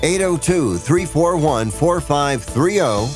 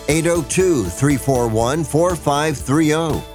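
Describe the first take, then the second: No difference in how they are said.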